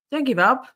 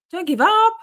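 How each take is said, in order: First: Raised, higher-pitched plea to keep going; urging encouragement. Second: High, loud rallying cry, rising on UP; emphatic encouragement. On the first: Streamer answering chat's "I give up", urging encouragement. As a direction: urge them on with a lifted voice. Replying to someone giving up. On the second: Streamer rallying a chat member who gives up, emphatic encouragement. Repeats encouragement, more forcefully. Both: Real, not acted.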